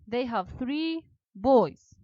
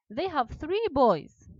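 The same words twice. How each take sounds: First: Said in the usual way. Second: Slow, with "three" hit high and loud; a slow classroom model line with "three" punched; stress on three. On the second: Shown as a demonstration. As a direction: lean hard on "three", say it slowly.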